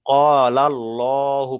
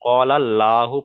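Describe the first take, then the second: First: "কলাল্লাহু" slowly, with a long heavy "lo"; thick Allah. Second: "কলাল্লাহু" with a light, open "laa"; wrong thin Allah. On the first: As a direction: recite "Qaalal-lohu" drawn out and rounded. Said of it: "পুর করে পড়তে হবে". ("কলাল্লাহু" পুর করে, টেনে "কলাল্লোহু") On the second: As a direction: say "Qaalal-laahu" with a thin L. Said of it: "পড়া যাবে না". ("কলাল্লাহু" বারিক করে, ভুল পাতলা "লা") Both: Shown as a demonstration.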